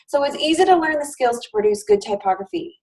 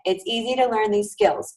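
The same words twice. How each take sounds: First: Said in the usual way. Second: A gentle reassuring repeat; repeated for emphasis. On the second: Shown as a demonstration. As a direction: say "it's easy to learn these skills" again, calmly stressing each word to reassure. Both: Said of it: "I will say it again".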